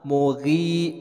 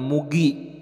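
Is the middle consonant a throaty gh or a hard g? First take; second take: throaty gh; hard g. First: The middle consonant is a throaty gh sound. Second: The middle consonant is a plain hard g. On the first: The speaker calls it right. "di sini ada huruf gha, ag, mughi" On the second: The speaker calls it wrong. "bukan mugi"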